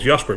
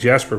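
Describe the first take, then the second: First: The name is said with a non-English pronunciation. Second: The name is said with an English pronunciation. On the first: This is how the name is really pronounced. "I'm called Jasper" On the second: This is the name adapted to English. "I'm using an English accent"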